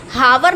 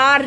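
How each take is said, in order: First: "हावर" with the h wrongly sounded; mispronounced "हावर". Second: "आर" starting on an open vowel, h silent. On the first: Teacher showing pupils how not to read the word, mispronounced "हावर". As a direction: say "हावर" with an audible h and a v glide. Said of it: "इसको हावर नहीं पढ़ते हैं". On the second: Teacher showing pupils how the word is read, silent-h "आर". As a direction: say "आर" with no h or v sound. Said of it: "आर read करते हैं". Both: Shown as a demonstration.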